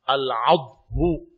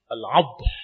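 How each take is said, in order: First: The word ends with a short vowel. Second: The word ends on a bare consonant.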